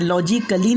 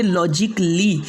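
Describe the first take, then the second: First: लॉजिकली said as "lo-ji-ka-lee", A sounded; wrong pronunciation with A. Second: लॉजिकली said as "lo-jik-lee", no A; silent A. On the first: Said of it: "ए को नहीं पढ़ना है". (लॉजिकली में 'क' के बाद 'अ' बोलकर) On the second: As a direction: run K straight into L in लॉजिकली. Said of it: "नहीं बल्कि". (लॉजिकली को 'लॉजिक-ली' बोलें, 'अ' के बिना) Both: Shown as a demonstration.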